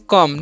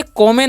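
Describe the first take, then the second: First: कम as one short syllable, "kum", with a silent final E; correct pronunciation. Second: कॉमे said as two syllables, "ko-me", with the final E sounded; wrong pronunciation. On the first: Teacher to students, giving the right reading कम as "kum". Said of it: "इसका उच्चारण हम लोग करते हैं कम". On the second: Teacher to students, showing the misreading कॉमे as "ko-me". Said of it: "इसे कॉमे नहीं पढ़ते हैं". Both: Shown as a demonstration.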